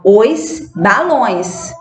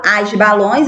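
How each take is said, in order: First: "os balões" said slowly, "os" set apart and drawn out; correct article. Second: "as balões" with the wrong article "as". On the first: Teacher modelling for pupils, slow stressed "os" in "os balões". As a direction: spell out "os balões" slowly, leaning on "os". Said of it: "eu falo os balões". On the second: Teacher showing pupils what not to say, wrong "as" in "as balões". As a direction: say "as balões" as the example to avoid. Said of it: "eu não falo as balões". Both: Shown as a demonstration.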